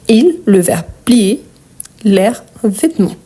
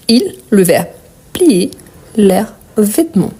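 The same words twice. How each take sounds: The two takes are said the same way.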